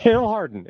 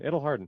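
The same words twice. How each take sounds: First: Higher and louder, through a laugh; It'll harden said laughing, pitched up. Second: Said in the usual way. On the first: Real, not acted.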